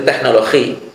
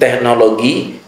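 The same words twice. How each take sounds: First: The G near the end sounds like H. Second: The G near the end sounds like G.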